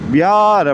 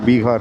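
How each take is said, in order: First: The middle consonant is a y sound. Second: The middle consonant is a clear h sound. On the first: This is how the locals say it. "இது வந்து அப்படி தான் உச்சரிக்கணும்" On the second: This is how people back home say it. "நம்ம ஊரில் சொல்கிறாங்கல்ல பீகார்"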